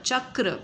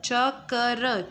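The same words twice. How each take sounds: First: Said in the usual way. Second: च क र split into separate sounds, very slow. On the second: Shown as a demonstration. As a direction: break चक्र into च, क, र one by one. (चक्र को च क र अलग-अलग तोड़कर धीरे बोलना) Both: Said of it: "पहले क का उच्चारण हुआ फिर र का हुआ".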